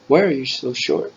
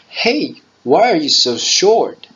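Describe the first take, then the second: First: It is said at a normal, quieter volume. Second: It is said in a louder voice.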